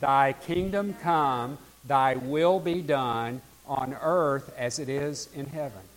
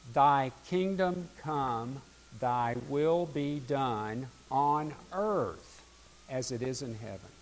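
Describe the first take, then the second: First: It is said with strong, earnest conviction. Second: It is said plainly, without special conviction.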